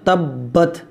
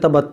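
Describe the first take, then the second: First: The b sound is held and doubled. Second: The b sound is short and single. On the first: The speaker calls it right. "तबत नहीं तब्बत" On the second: The speaker calls it wrong. "बाद लोग इसको पढ़ते तबत"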